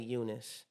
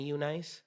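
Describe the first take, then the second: First: Eunice said as "YOU-niss"; Eunice ending in "-niss", rather than "nice"; real name pronunciation. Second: Eunice misread as "you-NICE"; Eunice with a long i at the end; common mispronunciation. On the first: Shown as a demonstration. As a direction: say Eunice with a short, reduced last syllable. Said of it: "my name is really Eunice". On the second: Retold or imitated. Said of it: "they automatically call me Eunice".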